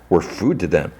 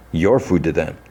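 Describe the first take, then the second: First: Said in the usual way. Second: YOU'RE leaned on as a correction; stress on YOU'RE. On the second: Retold or imitated. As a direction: turn it back with the weight on "you're". Retold comeback turning the words round.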